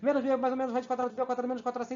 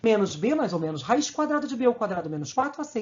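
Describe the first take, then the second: First: It is recited at a very fast pace. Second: It is recited at a moderate pace.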